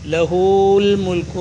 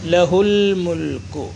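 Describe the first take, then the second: First: The vowel after h is drawn out long. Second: The vowel after h is said short. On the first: The speaker calls it wrong. "നോതൂല" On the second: The speaker calls it right. "ലഹുൽ മുൽക്കു ഹാഇനെ നീട്ടാതെ ഉച്ചരിക്കുക"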